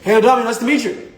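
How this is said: It is said in an overly excited tone. The tone does not match the body language. The speaker calls it wrong. "why are you so excited?"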